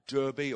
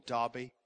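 First: Derbe with an "ur" vowel in the first syllable; Derbe as DUR-bee. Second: Derbe with an "ar" vowel in the first syllable; Derbe as DAR-bee. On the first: Preacher offers one way to say a town's name, Derbe as DUR-bee. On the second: Preacher offers the other way to say a town's name, Derbe as DAR-bee. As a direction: say Derbe like "Darby". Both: Shown as a demonstration. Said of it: "Derbe or Derbe".

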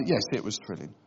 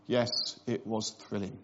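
First: Newlyweds playing down a trip that thrilled nobody; bored honeymooner. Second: Flat, lower, softer mock-bored reply; bored honeymooner. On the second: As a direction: newlyweds playing down a trip that thrilled nobody. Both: Imitating a bored newlywed answering a question about the honeymoon. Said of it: "where they're just bored already".

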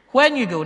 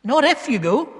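First: "when" punched high, then falling; stress on when. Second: "if" lifted high to reject it; stress on if. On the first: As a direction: hit "when" firmly as the correction. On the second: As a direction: lean on "if", pitched up. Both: Shown as a demonstration. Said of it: "notice a few of the words in that sentence".

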